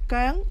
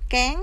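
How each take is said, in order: First: The vowel is a central 'ơ' sound. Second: The vowel is an open front 'e' sound. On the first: The speaker calls it right. "mà đọc là cớn cớn cớn" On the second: The speaker calls it wrong. "Chúng ta không đọc kén ha"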